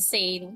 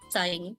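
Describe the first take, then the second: First: The name rhymes with the word lane. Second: The name rhymes with the word line. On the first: It is the name's intended pronunciation. The speaker calls it right. "instead of Sane" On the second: It follows a Japanese reading of the letters. The speaker calls it wrong. "in Japanese, if you have an S A and an I and an N, it's like Sign"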